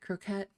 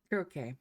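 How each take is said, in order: First: The word ends with a clear t sound. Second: The word ends in a vowel, no t sound. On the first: The speaker calls it wrong. "I said it croquette" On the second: The speaker calls it right. "I see it now"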